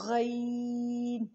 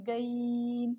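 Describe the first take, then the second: First: غین drawn out very slowly, loud and full-mouthed; full-mouthed ghain. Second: گین said thin, like a g; thin wrong ghain. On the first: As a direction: stretch a heavy throaty غین. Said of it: "منہ بھر کے پڑھا جائے گا". (غین کو منہ بھر کے، بہت آہستہ اور زور سے ادا کریں) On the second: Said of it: "تب یہ اس طرح ادا ہوتا ہے". (گین کو نرم، گاف کی طرح ادا کریں) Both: Shown as a demonstration.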